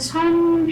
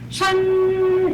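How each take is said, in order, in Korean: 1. 중국식 성조 없이 평평하게 발음해요. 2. 높은 평조로 발음해요. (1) "그냥 할 때는 선" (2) "성도 넣어서 션 이렇게 하시면 되죠"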